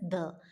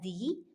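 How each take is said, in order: First: The vowel is a short 'uh' sound. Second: The vowel is a long 'ee' sound. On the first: It comes before a consonant sound. "when it comes before a consonant sound, it is pronounced as the" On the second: It comes before a vowel sound. "When the दी comes before a vowel sound, it is pronounced as the"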